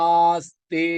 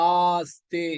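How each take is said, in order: No difference in how they are said.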